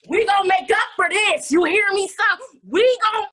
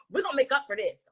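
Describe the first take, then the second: First: Louder, higher emphatic promise; hammed-up vow. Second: Said in the usual way. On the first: Host promising Jonah a make-up, loud emphatic vow. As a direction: punch it out like a fired-up vow.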